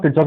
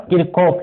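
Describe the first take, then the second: First: किरचॉफ with a CH in the middle; common pronunciation. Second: किरकॉफ with a hard K in the middle; book pronunciation. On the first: Teacher giving the name most people use, किरचॉफ with a CH sound. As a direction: say किरचॉफ the popular way, "kir-chof". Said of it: "ninety percent लोग किरचॉफ ही बोलते हैं". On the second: Teacher reading the name as the book spells it, किरकॉफ with a K sound. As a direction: say किरकॉफ as written, "kir-kof". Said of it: "किरकॉफ book में लिखा हुआ है". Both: Shown as a demonstration.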